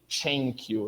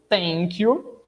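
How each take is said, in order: First: The first sound is a stop released into friction. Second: The first sound has the tongue against the teeth. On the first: "a variante africana, que é uma espécie de" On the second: "que é uma variante dental"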